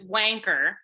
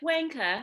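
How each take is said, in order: First: The word ends with a strong R sound. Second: The word ends in a vowel without R. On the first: "you guys don't do the hard R like we do" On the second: "But you're like wanka"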